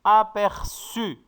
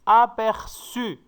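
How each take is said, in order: No difference in how they are said.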